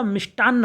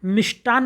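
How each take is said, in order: First: मिष्टान्न with a held double n; correct double n. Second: मिष्टान ended on one short n; wrong single n. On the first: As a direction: linger on the last n of मिष्टान्न. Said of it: "होता है". (मिष्टान्न में दोहरा न) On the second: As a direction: drop the double n in मिष्टान. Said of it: "नहीं होता". (मिष्टान में एक ही न) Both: Shown as a demonstration.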